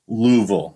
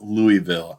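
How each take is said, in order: First: The syllables are clipped and run together. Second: Every syllable is fully and separately pronounced. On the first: The speaker calls it right. "I know it's Louisville" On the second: The speaker calls it wrong. "not Louisville. ... I overpronounce every syllable put my way"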